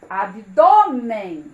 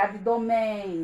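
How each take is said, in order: First: The stress is on the middle syllable. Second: The stress is on the last syllable. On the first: The speaker calls it right. "colocar o acento" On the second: The speaker calls it wrong. "Senão ficaria abdômen"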